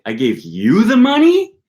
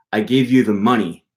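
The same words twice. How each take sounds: First: Higher, louder, slower with a big rise on money; money rising high in disbelief; rising question tune. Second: You stressed, falling tune. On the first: Teacher shows a sentence turned into an incredulous question. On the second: Teacher shows stress on you in a sentence. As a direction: lean on you. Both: Shown as a demonstration. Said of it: "it means something different than if you say".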